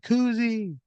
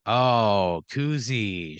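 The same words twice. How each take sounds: First: High-pitched squealed name; high, drawn-out mock scream. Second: Said in the usual way. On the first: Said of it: "she just screams". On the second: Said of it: "She goes, she just screams".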